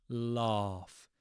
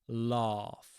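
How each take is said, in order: Both takes have the same delivery.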